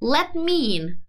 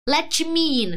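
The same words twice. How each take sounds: First: The T in 'let' is nearly silent. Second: The T in 'let' is forced and clearly released. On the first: The speaker calls it right. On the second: The speaker calls it wrong.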